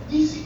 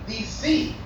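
First: The stress is on the first syllable, D. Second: The stress is on the last syllable, C. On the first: The speaker calls it wrong. "not Milael" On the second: The speaker calls it right. "it's Milarab"

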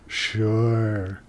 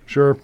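First: It is said with exaggerated, creepy warmth. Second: It is said flatly and casually.

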